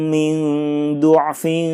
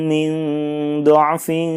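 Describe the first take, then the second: First: The word's first vowel is a rounded u. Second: The word's first vowel is an open a. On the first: "yang kedua adalah dotnya dibaca dummah" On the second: "huruf dot yang berharokat fathah, maka dotnya semuanya dibaca fathah"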